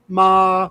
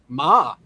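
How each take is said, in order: First: The pitch stays level and constant. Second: The pitch dips down, then rises again. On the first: "flat tone" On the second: "descending rising tone"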